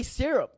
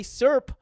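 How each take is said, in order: First: "syrup" in two clear syllables, "SI-rup"; fully pronounced "syrup". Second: "syrup" squashed into one syllable, like "surp"; slurred "syrup" as "surp". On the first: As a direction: say both halves of "syrup": "sir-up". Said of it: "you say syrup". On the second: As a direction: swallow the middle of "syrup": "surp". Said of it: "You don't say syrup". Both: Shown as a demonstration.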